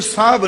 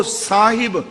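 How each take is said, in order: First: ਸਾਹਬ run together as one syllable, saab; mispronunciation shown. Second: ਸਾਹਿਬ in two slow syllables, saa-hib; careful correct pronunciation. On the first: Preacher correcting readers, contracted wrong saab. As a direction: drop the h and i, quick saab for ਸਾਹਬ. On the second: Preacher reading Guru Nanak's verse, careful saa-hib. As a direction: sound the short i in ਸਾਹਿਬ. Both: Shown as a demonstration. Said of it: "ਇਹਨੂੰ ਸਾਹਬ ਨਹੀਂ ਪੜ੍ਹਨਾ".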